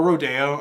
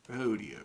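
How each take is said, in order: First: Rodeo said as roh-DAY-oh; roh-DAY-oh pronunciation. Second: Rodeo said as ROH-dee-oh; ROH-dee-oh pronunciation. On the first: Reactor offering the other title reading, rodeo as roh-DAY-oh. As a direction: stress a "day" in the middle of rodeo. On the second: Reactor trying out the song title, Rodeo as ROH-dee-oh. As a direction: stress the first syllable of Rodeo, "dee" in the middle. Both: Shown as a demonstration. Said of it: "is it rodeo or rodeo".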